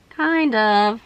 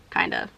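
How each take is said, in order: First: Said in the usual way. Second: Low, soft grudging "Kind of."; very low, quiet unconvinced aside; doubtful mutter. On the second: Real, not acted. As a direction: mumble the hedge under your breath. Doubtful hedge on her makeup.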